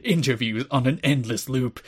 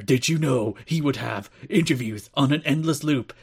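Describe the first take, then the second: First: Ominous attack ad narration; political attack ad voice. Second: Mock ominous campaign ad; political attack ad voice. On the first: Retold or imitated. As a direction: read it like a smear campaign ad. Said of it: "said in, like, the full political attack ad". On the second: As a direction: sell it like a smear ad. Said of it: "the full political attack ad".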